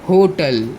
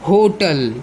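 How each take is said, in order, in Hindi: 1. यह शब्द एक मज़बूत h ध्वनि से शुरू होता है। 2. यह शब्द एक मज़बूत h ध्वनि से शुरू होता है।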